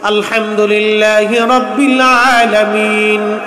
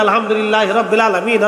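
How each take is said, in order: First: The Arabic sounds are pronounced carefully and accurately. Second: The Arabic sounds are pronounced loosely and inaccurately. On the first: People today recite it correctly. The speaker calls it right. "সূরা কালাম পড়ি সহি শুদ্ধ মতো" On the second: The village elder could not recite it correctly. The speaker calls it wrong. "তাদের ওইভাবে অত সহিশুদ্ধ ছিল না"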